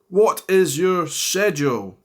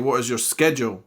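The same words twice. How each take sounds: First: Schedule is pronounced the British way. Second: Schedule is pronounced the American way. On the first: "I would say for this one" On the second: "Whereas in America, you definitely say"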